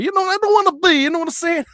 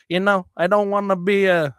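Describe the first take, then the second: First: Much higher, put-on Italian mobster accent; playful Italian mobster impression. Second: Said in the usual way. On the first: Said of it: "talking like an Italian mobster". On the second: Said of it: "I don't know why I'm talking like an Italian mobster".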